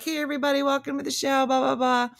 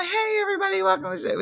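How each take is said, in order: First: Higher, lively emcee greeting, lightly imitated; open mic voice. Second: Much higher, shouted stage host welcome; open mic voice. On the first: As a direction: greet the crowd like a stage host. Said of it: "your open mic voice where you're, like, hosting things on stage". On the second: Shown as a demonstration. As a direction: hype up the room like an emcee. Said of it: "And then this is my".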